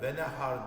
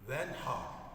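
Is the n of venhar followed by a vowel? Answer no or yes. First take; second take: yes; no. First: A vowel follows the n sound. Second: The n sound has no vowel after it. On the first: The speaker calls it wrong. "Ses verme Nun'a. Hareke verme. Ve nehar değil" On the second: The speaker calls it right. "Nun'un üzerine cezimi unutmayalım. Sakin"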